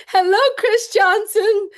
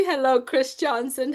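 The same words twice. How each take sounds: First: High, loud, gleeful hello; over-the-top excited shout-out; giddy, improper greeting. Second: Composed, polite hello in an everyday pitch; restrained, courteous shout-out; proper greeting. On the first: Real, not acted. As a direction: holler it high, about to burst out laughing. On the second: Shown as a demonstration. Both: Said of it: "That's more a proper way".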